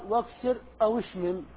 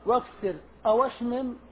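First: The w of 'aw' carries an i vowel. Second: The w of 'aw' carries an a vowel. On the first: "نكسرها" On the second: "نفتحها"

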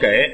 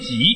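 First: The word is pronounced with the sound 'gei'. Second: The word is pronounced with the sound 'ji'. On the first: This is the common everyday reading. The speaker calls it wrong. "我们都念给" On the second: This is the standard reading of the character. The speaker calls it right. "念挤"

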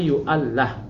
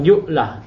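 First: The word is longer, with a doubled l. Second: The word is short, with a single l. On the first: The speaker calls it right. "tapi yu'allah" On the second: The speaker calls it wrong. "Bukan yu'lah"

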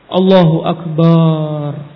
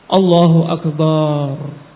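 No difference in how they are said.

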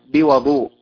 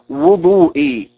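First: The first vowel is an open 'a'. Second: The first vowel is a rounded 'u'. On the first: It means the water used for ablution. "بفتح الواو" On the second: It means the act of ablution itself. "بضم الواو"

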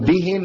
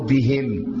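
First: The final m is short and single. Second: The final m is held and doubled. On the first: The speaker calls it right. "بدل ما يقول مثلا بهم" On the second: The speaker calls it wrong. "في ناس بتشد الميم وبتشددها"

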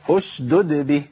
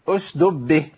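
First: Both d sounds are pronounced clearly. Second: The second d sound is dropped. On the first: The speaker calls it right. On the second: The speaker calls it wrong. "في كتير من الناس يقول ايه؟ ... اشدب فين الدال التانية؟"

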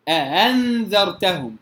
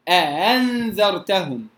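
The two takes are said the same way.

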